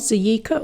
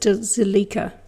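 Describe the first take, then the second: First: The double L is said like a Y. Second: The double L is said as an L. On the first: "like you do in Espanol" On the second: "or is it Zilika?"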